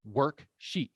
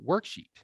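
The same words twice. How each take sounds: First: "worksheet" split in two, a pause between work and sheet; teacher breaking "worksheet" into its two parts; split into syllables. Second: Said in the usual way. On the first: Shown as a demonstration. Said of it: "two syllables". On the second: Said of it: "look at this example".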